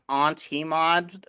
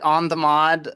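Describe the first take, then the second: First: The middle syllable is pronounced 'tee'. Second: The middle syllable is pronounced 'the'. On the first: "which is also an acceptable parsing" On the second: "you can pronounce it on the mod"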